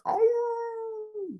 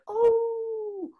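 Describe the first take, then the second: First: Big wolf howl, different timbre. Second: Small high wolf cub howl. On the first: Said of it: "daddy or mama wolf". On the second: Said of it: "like a little, little wolf cub". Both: Shown as a demonstration.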